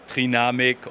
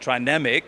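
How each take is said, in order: First: It is pronounced with German sounds. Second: It is pronounced with English sounds. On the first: "the German one is Trinamic" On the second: "we are an international company"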